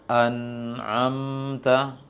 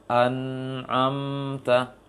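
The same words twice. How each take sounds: First: "An'amta" with the nun and ain clipped; wrong recitation. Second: "An'amta" slow, a little sound on nun and ain; correct recitation. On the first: Teacher showing the mistake, slow. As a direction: stop short on the n of "An'amta". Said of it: "Maka keliru". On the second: Teacher showing the right way, slow. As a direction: let "An'amta" carry some voice, slow. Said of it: "Tapi dihadirkan suara sedikit". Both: Shown as a demonstration.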